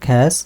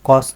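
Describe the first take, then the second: First: The word is said with a 'ya' vowel. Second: The word is said with an 'o' vowel. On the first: The speaker calls it right. "এটা উচ্চারণ হচ্ছে খ্যাস" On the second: The speaker calls it wrong. "এখানে কলম কস না"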